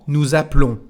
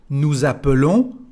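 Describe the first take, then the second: First: The vowel after the p is dropped. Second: The vowel after the p is pronounced. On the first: "or nothing if you want to make a contraction" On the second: "it is the sound E"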